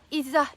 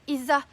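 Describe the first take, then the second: Both takes have the same delivery.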